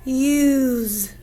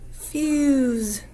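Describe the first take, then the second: First: "Use" drawn out after a separate f sound; slow, segmented "Use" to expose the vowel. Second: Said in the usual way. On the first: Shown as a demonstration. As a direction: stretch the long u in "Use". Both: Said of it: "our vowel is making a long".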